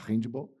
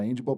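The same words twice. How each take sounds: First: It is said with a Brazilian Portuguese pronunciation. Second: It is said with an English-like pronunciation. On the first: "no Brasil a gente fala handball" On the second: "para mim é difícil falar handball"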